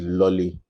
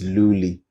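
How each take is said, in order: First: The first vowel is short, like in 'lolly'. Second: The first vowel is long, like in 'loo'. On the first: The speaker calls it wrong. "Some will say it's Lolly" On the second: The speaker calls it right. "So it's Luli"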